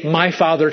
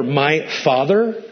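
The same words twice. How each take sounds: First: Said in the usual way. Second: "My Father" drawn out slow with a lifted end; slow emphatic "My Father"; slow, weighty My Father. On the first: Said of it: "You could say". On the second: Shown as a demonstration. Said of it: "but never".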